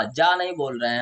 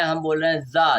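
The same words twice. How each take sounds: First: जा said with a hard j, /dʒa/; जा pronounced ja; j sound. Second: जा said with a buzzing z, /za/; जा pronounced za; z sound. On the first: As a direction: say जा as ja, the rejected way. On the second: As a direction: say जा as za, not ja. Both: Shown as a demonstration.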